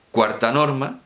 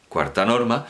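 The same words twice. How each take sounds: The two takes are said the same way.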